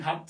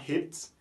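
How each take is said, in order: First: "hat" with an open "a", not "hit"; French-style A. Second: "hat" mispronounced as "hit", with an "eh" vowel; rejected long-A pronunciation. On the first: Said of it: "on prononce comme si on avait un mot en français". (« hat » avec le a français) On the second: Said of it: "on ne dit pas hit". (« hit », la mauvaise voyelle pour hat) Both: Shown as a demonstration.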